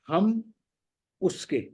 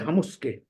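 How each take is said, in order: First: Ham and uske are said as separate words. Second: The m of ham joins onto uske. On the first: "पहला शब्द हम है, दूसरा उसके" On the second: "माँ पे ऊ की मात्रा लग जाएगी"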